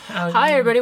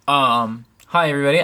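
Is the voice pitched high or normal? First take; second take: high; normal. First: The voice is pitched high, girlish. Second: The voice is at its normal pitch.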